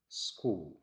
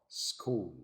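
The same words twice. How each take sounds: No difference in how they are said.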